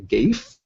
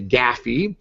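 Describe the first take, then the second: First: It is one syllable rhyming with safe. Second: It is two syllables rhyming with taffy. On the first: "as it rhymes with safe" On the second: "Or taffy"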